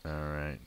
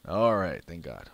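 First: Said in the usual way. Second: Loud, relieved all right; relieved cheer. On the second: Real, not acted. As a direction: let the tension go in a burst. Relieved after winning match.

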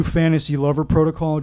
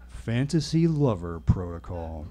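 First: Said in the usual way. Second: Slow, low repeat of the phrase; uneasy echo. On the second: A narrator's reading. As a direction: let it sink in, low and slow. Narrator dreads it, swallows hard.

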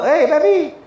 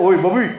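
First: Hard insulting call. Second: Said in the usual way. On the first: Shown as a demonstration. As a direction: bark "Hei, babi" like an insult. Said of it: "tak boleh sebut lembut-lembut". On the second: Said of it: "Dia sebut".

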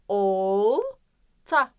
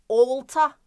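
First: "olta" with a long held "ol", pause, short "ta"; drawn-out initial O. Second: Said in the usual way. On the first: Shown as a demonstration. Teacher asking where O falls, long first o in "olta". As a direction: stretch the o of "olta", then snap off "ta". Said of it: "Tabii ki de başında". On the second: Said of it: "Neresinde sizce? Tabii ki de başında".

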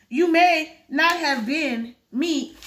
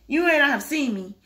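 First: Slow, stretched out on may; dragging the line, may drawn out; misread slow line. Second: Said in the usual way. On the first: Shown as a demonstration.

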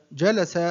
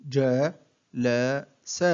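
First: Said in the usual way. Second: One short syllable at a time, with pauses; broken into syllables. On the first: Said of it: "أقطع الكلمة". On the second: Shown as a demonstration. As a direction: separate each syllable for a learner to copy. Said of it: "أقطع الكلمة إلى مقاطع قصيرة". (تقطيع الكلمة مقطعًا مقطعًا بوقفات)

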